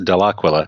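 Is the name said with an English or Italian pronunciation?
Italian. The name is said with an Italian pronunciation. The speaker calls it right. "In Italy, it's pronounced"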